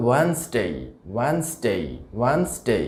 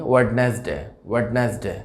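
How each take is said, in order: First: ওয়েডনেসডে as two syllables "WENS-day"; correct pronunciation. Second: ওয়েডনেসডে as "wed-nes-de", d sounded; spelling-based ওয়েডনেসডে with short "de"; common mispronunciation. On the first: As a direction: say ওয়েডনেসডে with silent first d. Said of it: "সঠিক উচ্চারণটা আসলে হবে". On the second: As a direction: say ওয়েডনেসডে in three full syllables. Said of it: "আমরা যেভাবে উচ্চারণ করে থাকি". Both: Shown as a demonstration.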